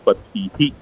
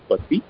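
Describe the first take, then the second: First: The word ends with an extra breathy 'hi'. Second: The word ends without an extra breathy syllable. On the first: The speaker calls it right. "it is patihi" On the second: The speaker calls it wrong. "it's not just pati"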